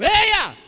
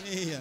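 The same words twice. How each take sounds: First: It is said forcefully, with lots of energy. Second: It is said weakly, with little energy.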